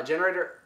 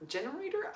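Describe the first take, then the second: First: Said in the usual way. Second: GENERATOR lifted high into a questioning rise; "generator?" with a high, quiet upward lilt; doubtful question. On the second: Real, not acted. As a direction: say "generator" softer and much higher, as if unsure. Doubts the word just said.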